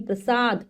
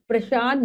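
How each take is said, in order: First: "प्रसाद" with a clean S, pra-saad; correct pronunciation. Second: "प्रसाद" said with SH for S, pra-shaad; mispronounced word. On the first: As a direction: say prasaad with S, not SH, for "प्रसाद". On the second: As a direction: say "प्रसाद" wrongly as prashaad. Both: Shown as a demonstration. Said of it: "प्रसाद नहीं".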